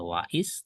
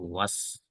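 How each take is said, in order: First: The hamzah vowel after wa is pronounced separately. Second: The hamzah is dropped and wa links into s. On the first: The speaker calls it wrong. "Bukan wais" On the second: The speaker calls it right. "tapi was ya, hamzahnya tidak terbaca"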